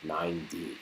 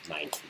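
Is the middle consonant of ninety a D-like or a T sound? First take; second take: D-like; T sound. First: The middle consonant sounds like a soft D. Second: The middle consonant is a crisp, clear T. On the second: "Pronounce it really proper"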